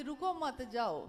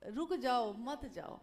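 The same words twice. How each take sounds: First: रुको मत run together, then जाओ; group it "रुको मत / जाओ"; pause after मत. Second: Group it "रुक जाओ / मत जाओ"; pause after first जाओ. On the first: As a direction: join मत to रुको, not to जाओ. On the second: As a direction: keep मत with the second जाओ. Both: Shown as a demonstration. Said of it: "पूरा अर्थ बदल गया".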